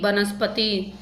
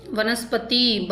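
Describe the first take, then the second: First: वनस्पति starting with "b"; b sound. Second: वनस्पति starting with "v"; v sound. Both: Shown as a demonstration. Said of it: "बै और वै".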